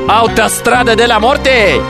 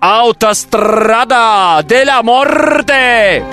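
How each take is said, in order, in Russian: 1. Её читают просто, обычным голосом. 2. Её произносят с подражательным, наигранным акцентом.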